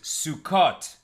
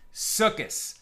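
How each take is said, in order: First: It uses the modern Sephardic Hebrew pronunciation. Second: It uses the traditional Ashkenazi Hebrew pronunciation.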